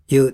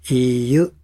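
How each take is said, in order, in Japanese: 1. その音節は一つの滑らかな音にまとまっています。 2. その音節は別々の i と yu の音に分かれています。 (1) "それを潰して言うと" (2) "ちゃんと音だけで分解すると"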